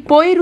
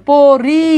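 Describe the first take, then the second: First: পইর with the i sound before the r; mispronounced পইর, vowel ahead of the r; wrong pronunciation. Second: পরি sounded out, i after the r; drawn-out পরি with the রি held; correct pronunciation. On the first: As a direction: run প into ই, then r, as পইর. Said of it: "আপনি কি পইর উচ্চারণ করেন". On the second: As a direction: say প, then a long রি, as পরি. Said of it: "নাকি প্রথমটা উচ্চারণ". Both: Shown as a demonstration.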